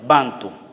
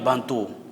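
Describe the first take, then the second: First: The stress is on the first syllable. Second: The stress is on the last syllable. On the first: This is how Africans themselves say it. "el acento prosódico se pone en la primera sílaba" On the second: This is how Spanish speakers say it. "al español, Bantú"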